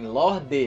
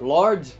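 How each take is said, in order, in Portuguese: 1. A palavra termina com uma vogal final audível. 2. A palavra termina em consoante, sem vogal. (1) "O nome bem pronunciado? Porque realmente tem um E no fim" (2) "Lord sem o E no fim seria em inglês"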